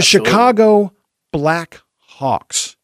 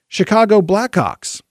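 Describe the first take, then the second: First: Each word is clearly and carefully enunciated. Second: The words are run together quickly and slurred. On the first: The speaker calls it right. "you have to enunciate very clearly" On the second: The speaker calls it wrong. "if you say it fast or you say it in a Chicago accent"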